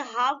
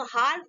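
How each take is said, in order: First: हाफ with no L before F; silent L. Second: हाफ with an L sounded before F; mispronounced half, L pronounced; wrong pronunciation. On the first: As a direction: say हाफ as 'haaf'. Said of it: "इसको क्या बोलेंगे?". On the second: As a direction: say हाफ as 'haalf'. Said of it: "इसको हाफ नहीं पढ़ेंगे". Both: Shown as a demonstration.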